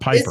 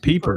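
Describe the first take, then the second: First: The first vowel sounds like 'eye', as in piper. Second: The first vowel sounds like 'ee', as in peeper. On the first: The speaker calls it wrong. "not Piper" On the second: The speaker calls it right. "It's Pieper"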